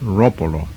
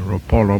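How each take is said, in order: First: The stress is on the first syllable. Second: The stress is on a later syllable. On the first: The speaker calls it right. "with the accent on the first syllable" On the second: The speaker calls it wrong. "commonly people pronounce it"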